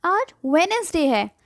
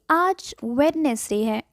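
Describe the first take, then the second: First: वेडनेसडे said with a silent d, wensday; right Wednesday. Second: वेडनेसडे said with the d sounded, wrong way; wrong Wednesday. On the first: Teacher corrects herself: silent d. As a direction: drop the d in वेडनेसडे. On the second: Teacher shows the wrong way first: sounded d. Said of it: "नहीं". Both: Shown as a demonstration.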